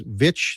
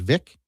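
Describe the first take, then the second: First: The ending is said with a ch sound. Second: The ending is said with a k sound. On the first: This is the European way to say it. "the European is Vich" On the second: This is the anglicized way to say it. "the standardized is Vic"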